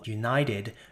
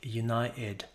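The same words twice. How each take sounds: First: The t is fully pronounced between vowels. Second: The t is replaced by a glottal stop.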